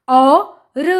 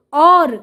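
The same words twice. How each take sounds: First: औ and र said apart; sounding out. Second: Said in the usual way. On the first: Shown as a demonstration. Teacher breaking a word up for children, sound by sound. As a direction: draw out औ, pause, then र. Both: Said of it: "उच्चारण करके पढ़ लिया".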